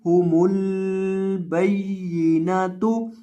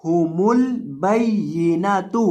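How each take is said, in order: First: हुमुल बैयिनातु with the lam of हुमुल stretched long; wrong long lam. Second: हुमुल बैयिनातु with the lam of हुमुल kept short; don't stretch the l in हुमुल. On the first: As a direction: drag out the l in हुमुल as a common mistake. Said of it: "यानी लाम को लंबा करके पढ़ देते हैं". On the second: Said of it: "लाम को यहाँ बिल्कुल भी नहीं खींचेंगे". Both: Shown as a demonstration.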